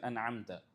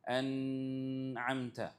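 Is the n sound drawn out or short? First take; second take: short; drawn out. First: The n sound is short and plain. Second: The n sound is stressed and drawn out. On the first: The speaker calls it right. "You're supposed to read it simply as an'amta" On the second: The speaker calls it wrong. "This is overemphasizing on the noon sound. This is a mistake"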